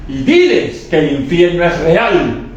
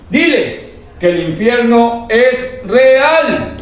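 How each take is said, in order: First: Slow, weighty proclamation; slow solemn command. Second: Slow, much higher, stretched out; drawn-out high climactic proclamation; preaching climax. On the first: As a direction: announce it as a divine order. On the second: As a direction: preach it at the peak of intensity. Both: Retold or imitated. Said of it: "la voz del Espíritu Santo que me dijo".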